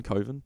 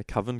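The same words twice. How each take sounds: First: Coven said as "coh-ven"; long-o Coven. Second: Coven said as "cuvven"; alternative pronunciation. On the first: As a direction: Coven with the vowel of "go". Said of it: "you saying Coven instead of Coven". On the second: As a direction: Coven with the vowel of "oven". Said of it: "totally pronounce that as Coven". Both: Shown as a demonstration.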